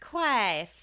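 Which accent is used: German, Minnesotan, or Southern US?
Southern US. It is said in a Southern US accent.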